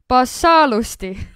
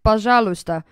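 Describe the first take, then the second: First: It is said with an Estonian accent, plain s sounds. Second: It is said with a native Russian pronunciation. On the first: "just do the Estonian version" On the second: "Russians pronounce it pozhaluysta"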